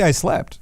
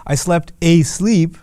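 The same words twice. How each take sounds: First: Said in the usual way. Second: Slow, weighted "I slept asleep" with the stress landing on "asleep"; emphatic repeated verb. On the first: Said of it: "You could just say". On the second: Shown as a demonstration. Teacher shows the Arabic emphasis in English, stressing "asleep". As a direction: lean hard on "asleep" and slow the whole phrase down. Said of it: "But they'll say".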